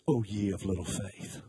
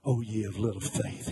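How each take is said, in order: First: Condescending. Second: Low, weary, scolding sigh of a line; condescending. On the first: Jesus woken from a nap, chiding the disciples condescendingly. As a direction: talk down to them like an irritated teacher. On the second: Jesus scolding the frightened disciples, condescending. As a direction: sound put out and above them. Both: Retold or imitated. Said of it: "you can hear the condescension".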